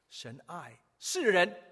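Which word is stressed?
人. The stress falls on the word 人.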